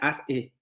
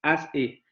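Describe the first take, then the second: Both takes have the same delivery.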